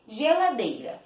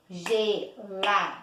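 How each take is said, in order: First: Said in the usual way. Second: "Geladeira" slowly broken up, GE, LA, DE, I, RA; "Geladeira" in separate, spaced-out beats; syllable by syllable. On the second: Shown as a demonstration. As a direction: say "Geladeira" one syllable at a time. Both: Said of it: "Quantas vezes eu abri a boquinha".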